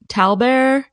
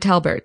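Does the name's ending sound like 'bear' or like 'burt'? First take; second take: bear; burt. First: The name ends with a 'bear' sound. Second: The name ends with a 'burt' sound. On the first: "Is it like Colbert?" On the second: "Or is it"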